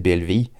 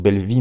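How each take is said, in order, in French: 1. Le titre s'épelle lettre par lettre. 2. Le titre se dit en deux mots. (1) "il faudrait le prononcer B-L-V-I" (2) "moi, je le prononce Belle Vie"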